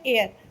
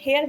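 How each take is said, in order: First: The word begins with a vowel sound. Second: The word begins with an h sound. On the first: The speaker calls it right. "ये है एयर" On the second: The speaker calls it wrong. "ये हेयर बोलते हैं हम लोग लेकिन वो गलत बोलते हैं"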